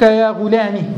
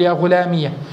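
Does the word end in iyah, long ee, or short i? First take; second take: short i; iyah. First: The word ends in a short i sound. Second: The word ends in an iyah sound. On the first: "بالكسر، أي اللغة الأولى" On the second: "فتح الياء تقول يا غلامية"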